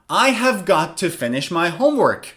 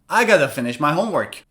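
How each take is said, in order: First: Have got to is said in full. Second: Have got to is reduced to gotta. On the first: "Instead of have got to" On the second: "you can say gotta"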